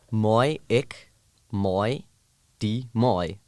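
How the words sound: The repeated word has an 'oi' vowel. "you have the I and the oi"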